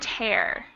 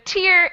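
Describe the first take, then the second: First: The vowel sounds like the one in 'air'. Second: The vowel sounds like the one in 'ear'. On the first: To rip something apart. "pronounced in the same way that air" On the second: Water that comes from the eye. "So long E"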